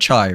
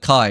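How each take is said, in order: First: The name begins with a ch sound. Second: The name begins with a k sound. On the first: The speaker calls it wrong. "instead of uh, Chai" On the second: The speaker calls it right. "it's pronounced as uh, Kai"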